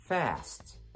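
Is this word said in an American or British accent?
American. The vowel is a front, open ah sound.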